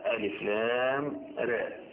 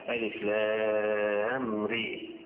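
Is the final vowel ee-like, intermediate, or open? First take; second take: intermediate; ee-like. First: The final vowel is between 'aa' and 'ee'. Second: The final vowel is raised close to 'ee'. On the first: "بالتقليل للراء" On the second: "الاماله ري"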